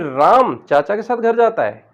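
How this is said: The word राम is said with strong emphasis. Ram is the one going, not someone else. "राम शब्द पर जोड़ देंगे"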